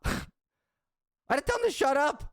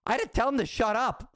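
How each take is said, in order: First: Laughing through the words, pitched higher. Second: Said in the usual way. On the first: Real, not acted. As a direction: crack up while retelling telling the driver to shut up. Repeats line, laughing through it.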